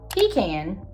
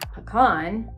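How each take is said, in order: First: It is pronounced the southern Georgia way. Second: It is pronounced the northern Georgia way. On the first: The speaker is from south Georgia. "if you are down in the south part of Georgia" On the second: The speaker is from north Georgia or the wider Southeast. "If you're more from the northern part of the state in the mountains"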